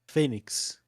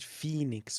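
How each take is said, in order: First: The name is pronounced the Portuguese way. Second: The name is pronounced the English way. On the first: "we say Phoenix" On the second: "on Portuguese we don't say Phoenix"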